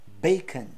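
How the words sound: It is said with English vowels. "mas em inglês se fala bacon"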